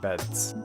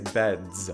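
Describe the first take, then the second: First: The word ends in a hissing s sound. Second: The word ends in a buzzing z sound. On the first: The speaker calls it wrong. "not beds" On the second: The speaker calls it right. "You say beds"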